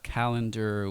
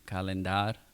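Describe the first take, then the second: First: It is said with normal English pronunciation. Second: It is said with Spanish spelling-based pronunciation.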